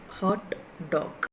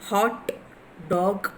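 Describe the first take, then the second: First: Hot dog softer, falling away; contrasting stress. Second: Hot dog as two separate words, both punched; stress demonstration. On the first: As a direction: let hot dog drop, without the punch. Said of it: "right side is a wrong mark". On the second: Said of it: "Yeah, stressing. The red mark". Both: Shown as a demonstration.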